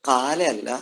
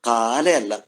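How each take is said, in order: The two takes are said the same way.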